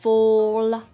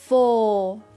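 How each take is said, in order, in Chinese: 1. 结尾的 l 要弹一下放开。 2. 结尾的 l 保持住，不放开。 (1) "弹下来的话呢就变成了fall fall" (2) "我们来看下面这个词fall fall fall fall，不要把舌头弹下来"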